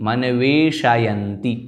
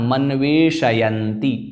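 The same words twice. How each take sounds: First: The 'sh' sound is said with its full vowel. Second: The 'sh' sound is said with its full vowel.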